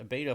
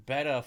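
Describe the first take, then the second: First: "beta" said BAY-tuh; first syllable of "beta" like "bay"; long-a pronunciation. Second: "beta" said BET-uh; short E in "beta", rhymes with "feta"; short-e pronunciation. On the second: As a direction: say "beta" like betta, the fish. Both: Real, not acted. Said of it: "can't even pronounce beta or beta".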